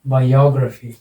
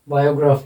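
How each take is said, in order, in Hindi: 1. Stress दूसरे syllable पर है। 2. स्ट्रेस दूसरे सिलेबल पर नहीं है। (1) "यहाँ पर लगेगा और इसका उच्चारण होगा बायोग्राफी" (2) "बायोग्राफी नहीं है"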